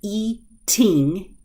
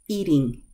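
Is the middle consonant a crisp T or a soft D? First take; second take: crisp T; soft D. First: The middle consonant is a crisp, released T. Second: The middle consonant is a quick, soft D. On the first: "I can say eating" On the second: "when I'm pronouncing normally"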